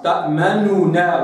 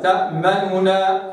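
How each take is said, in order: First: تأمنونا with the damma exact and light; refined damma. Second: تأمنونا with a full damma; common damma. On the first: Teacher modelling the refined reading. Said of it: "أما ضم الخواص". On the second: Teacher imitating the common reading. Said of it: "ضم الأعوام". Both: Shown as a demonstration.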